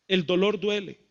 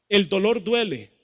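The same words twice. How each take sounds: The two takes are said the same way.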